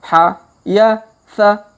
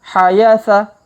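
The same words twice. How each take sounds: First: The syllables are read slowly. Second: The syllables are read quickly. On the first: "Jadi kita baca pelan-pelan" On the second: "Kalau dipercepat"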